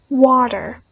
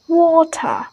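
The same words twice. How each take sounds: First: American "water" with T turned to D; American pronunciation. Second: British "Water" with a strong T; "Water" with a hard T and open ending; British pronunciation. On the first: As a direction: say "water" like "wah-der". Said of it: "they change the T sound to D". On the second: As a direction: say "Water" as "waw-tah", crisp T, no R. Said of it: "it much more stronger". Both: Shown as a demonstration.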